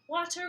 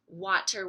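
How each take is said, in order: First: It is said in a silly put-on voice. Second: It is said in an ordinary speaking voice.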